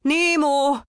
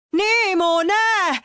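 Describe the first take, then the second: First: Much higher, louder call; shouting his name. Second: Even higher, louder, stretched-out cry; desperate shout. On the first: Father shouts after the departing boat, high and loud. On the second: Father screams his son's name even higher as the boat vanishes. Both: A narrator's reading. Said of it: "kiabált Pizsi".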